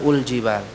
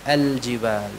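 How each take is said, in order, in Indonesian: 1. Kata al-jibal diawali dengan vokal u. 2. Kata al-jibal diawali dengan vokal a. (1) "bukan ul-jibal" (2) "kalau kita memulainya dengan fathah ini al-jibal"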